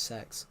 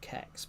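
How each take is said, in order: First: The name is one word starting with s. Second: The name is one word starting with k. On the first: "but it's actually pronounced Sex" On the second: "or Kex"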